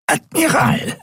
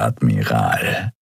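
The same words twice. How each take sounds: First: Admiral croaked high, pressed and nasal, falling. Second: Low, slow Admiral with a rising end; slow mocking greeting, low; smug greeting. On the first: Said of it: "krächzte die gepresste, nasale Stimme". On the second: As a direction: draw out Admiral low and slow, ending with a lift. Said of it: "sagte er zur Begrüßung". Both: A narrator's reading.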